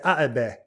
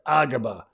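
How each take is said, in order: First: The middle consonant is a glottal stop. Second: The middle consonant is a g sound. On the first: "take the ka and make it a glottal stop" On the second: "take the the ka and make it a g"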